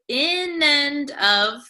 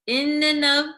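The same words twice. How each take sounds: First: Each word is said separately and fully. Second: The words run together with "and" reduced. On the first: "instead of in and of" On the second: "it's going to become"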